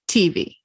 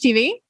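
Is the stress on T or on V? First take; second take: T; V. First: The stress is on the T. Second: The stress is on the V. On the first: "I have heard other people say T V" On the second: "On the V"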